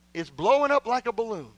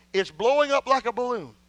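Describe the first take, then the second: No difference in how they are said.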